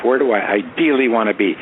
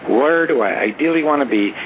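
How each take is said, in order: First: "ideally" stressed within an even question. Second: Whole question pitched high, "ideally" stretched and emphasized; strong stress on IDEALLY. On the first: Planner asking himself about ten years out, stress on "ideally". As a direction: lean lightly on "ideally", lifting it. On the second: Planner repeating his question to listeners, emphatic stress on "ideally". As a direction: hit "ideally" high and deliberately. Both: Shown as a demonstration. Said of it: "I emphasize the word ideal".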